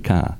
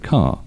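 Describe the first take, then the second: First: The r is dropped in a New England way. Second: The r after the vowel is not pronounced. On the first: "Unless you're from New England, right? Then you say car" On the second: "in British English, we don't pronounce the letter R when it comes after a vowel"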